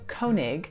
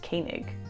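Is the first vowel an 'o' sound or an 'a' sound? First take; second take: o sound; a sound. First: The first vowel is an o sound. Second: The first vowel is an a sound. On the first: This is how the spelling suggests reading it. The speaker calls it wrong. "So it looks like Koenig" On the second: This is how locals say the name. The speaker calls it right. "the O and the E actually make an A sound, and so this is pronounced Koenig"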